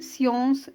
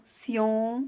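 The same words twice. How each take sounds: First: Said in the usual way. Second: "science" broken into scien and ce, with a pause; split into syllables. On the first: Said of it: "On va le découper en syllabes". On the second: Shown as a demonstration. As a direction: say "science" in two beats, voicing the final e: scien... ce. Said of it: "deux syllabes".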